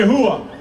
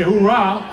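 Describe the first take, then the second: First: "Hooah" said as HOO-ah with no r; Army hooah. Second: "Hoorah" said as hoo-RAH with an r; Marine hoorah. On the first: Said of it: "and the Army say". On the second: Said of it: "They say". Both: Retold or imitated.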